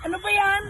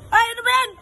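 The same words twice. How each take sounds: First: Said in the usual way. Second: High loud exasperated cry; exasperated shout. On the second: Acted. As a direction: throw up your hands, shouting. Host scolds again.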